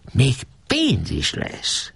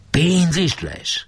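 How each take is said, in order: First: High, slow, coaxing promise; tempting. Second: High, slow astonished ask; amazed question. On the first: Geréb baits the caretaker with money, slow and coaxing. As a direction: dangle the money slowly. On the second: Janó stunned by the promise of cash, high and slow. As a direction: drag out the wonder at the money. Janó greedy at money news. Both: A narrator's reading.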